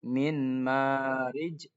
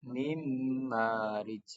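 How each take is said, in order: First: The n sound is clearly pronounced. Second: The n merges into m, held and nasalized.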